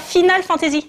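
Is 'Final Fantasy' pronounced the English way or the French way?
French. It is pronounced with French-style sounds. The speaker calls it wrong. "et non pas Final Fantasy"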